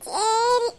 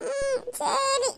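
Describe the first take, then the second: First: Put-on child's drawn-out yes with a giggle; cheered-up little girl giving in; smiling agreement. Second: Put-on slow, sniffly child's consent; sulky little-girl yes, acted; tearful reluctant agreement. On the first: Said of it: "கொஞ்சம் சிரிச்சுக்கிட்டு தான் சொல்லி". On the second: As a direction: give in with a small whimper. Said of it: "அது கொஞ்சம் சிரிச்சுக்கிட்டு தான்".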